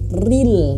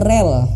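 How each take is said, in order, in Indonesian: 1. Vokalnya bunyi i yang jelas. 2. Vokalnya bunyi e. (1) "ril bukan rel" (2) "bukan rel"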